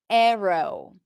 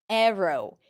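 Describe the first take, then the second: No difference in how they are said.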